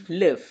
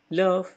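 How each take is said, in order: First: "love" said with a flat open vowel, almost "lev"; teacher gives the American "love", vowel like "lev". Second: "Love" said with a rounded o, almost "lof"; teacher gives the British "Love", vowel like "lof". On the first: Teacher showing students the American way: "love" with an open flat vowel, like "lev". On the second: Teacher showing students the British way: "Love" with a rounded o, like "lof". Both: Shown as a demonstration. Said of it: "Beda love sama love".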